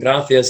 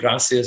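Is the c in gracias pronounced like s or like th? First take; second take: th; s. First: The c is pronounced with a th sound. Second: The c is pronounced with an s sound. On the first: This is how it is said in Spain. "they use la theta" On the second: This is how it is said in Latin America. "instead of"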